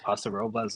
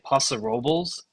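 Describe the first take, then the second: First: The name is said the non-local way. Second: The name is said the local way. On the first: This is how the speaker thinks it should be said. The speaker calls it right. "as far as I'm concerned" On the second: This is how people living there say it. The speaker calls it wrong. "as the locals say"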